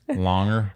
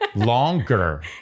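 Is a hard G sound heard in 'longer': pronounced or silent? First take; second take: silent; pronounced. First: It is said without a hard G sound. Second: It is said with a hard G sound. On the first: "it's a waste of time to say the G" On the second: "in an annoying way. in a longer way"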